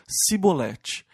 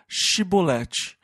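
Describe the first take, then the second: First: The word begins with a plain s sound. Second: The word begins with a sh sound. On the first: The speaker belongs to the enemy group. The speaker calls it wrong. "não conseguiam pronunciar o C H e diziam Sibolete" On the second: The speaker belongs to the local group. The speaker calls it right. "Diga Shibolete"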